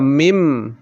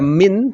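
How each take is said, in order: First: The word ends with an m sound. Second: The word ends with an n sound. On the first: The speaker calls it right. "tetapi dibaca mim" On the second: The speaker calls it wrong. "langsung tidak dibaca min"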